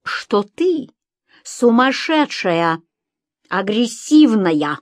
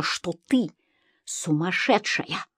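First: Slow, raised, word by word; emphatic accusation. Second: Slow, soft, dropped voice; hushed verdict. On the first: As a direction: spell out the diagnosis slowly and pointedly. Husband spells out the diagnosis to her. (медленно, с нажимом) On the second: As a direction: let the words fall away slowly and softly. Narrator repeats the document's verdict. (тихо и медленно) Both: A narrator's reading.

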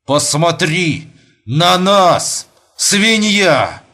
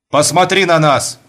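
First: Very slow, each word cut apart heavily; «Посмотри на нас» spaced out word by word, slow and heavy; carving each word. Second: A sharp command, louder, said at normal speed; sharp loud order. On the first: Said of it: "словно вырезая каждое слово толстым ножом". (медленно, словно вырезая каждое слово ножом) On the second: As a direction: bark the order quickly at her. Husband orders wife to look. (резкий громкий приказ) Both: Acted.

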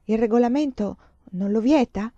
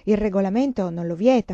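First: Puzzled, doubtful question; perplexed echo. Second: Firm and louder, matter-of-fact; insistent statement. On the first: Mother echoing the nun's rule, mildly perplexed. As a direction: repeat it back, not quite believing. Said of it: "Perplessa Emanuela chiese". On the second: Nun stating the rule, firm and louder. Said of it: "La suora insisteva". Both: Acted.

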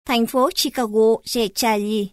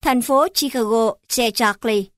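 First: Chicago and Charlie said the Northern way, "Charlie" as "cha-li"; thành phố Chicago, Che Charlie in Northern Vietnamese; Northern Vietnamese accent. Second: Chicago and Charlie said the Southern way, "Charlie" as "chác-li"; thành phố Chicago, Che Charlie in Southern Vietnamese; Southern Vietnamese accent. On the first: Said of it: "Bắc". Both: Shown as a demonstration.

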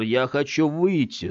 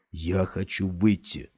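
First: Put-on slow childish plea, cross and frightened; childlike half-angry, half-scared. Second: Said in the usual way. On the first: Scott pleading to get out like a child, half angry half scared. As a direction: sound like a scared sulky kid. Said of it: "сказал Скотт голосом ребёнка, полусердитым, полуиспуганным".

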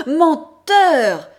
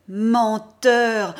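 First: Menteur! again, far louder and higher, at full force; higher, shriller repeat. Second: Loud, angry cry of Menteur!; accusing shout. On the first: Mother accusing her son: screamed, higher Menteur!. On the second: Mother accusing her son: angry loud Menteur!. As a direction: fling Menteur! at him in fury. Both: Acted.

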